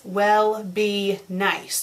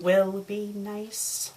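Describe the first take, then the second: First: "will" said as "well", drawn out; typo read literally. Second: Said in the usual way. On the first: Shown as a demonstration. Reader shows up the typo, "will" misread as "well". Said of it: "Don't you mean will be nice?". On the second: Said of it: "Don't you mean".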